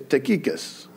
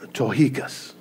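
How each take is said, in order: First: The name is said with English-style pronunciation. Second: The name is said with Greek-style pronunciation. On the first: This is how English speakers habitually say it. The speaker calls it wrong. "We say Tychicus because we're English" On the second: This is how the name is supposed to sound. The speaker calls it right. "phonetically how it's supposed, his name is supposed to be pronounced Tychicus"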